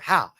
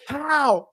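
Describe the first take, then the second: First: It is said at normal loudness. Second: It is shouted as loud as possible.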